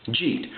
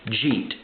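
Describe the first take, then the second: The two takes are said the same way.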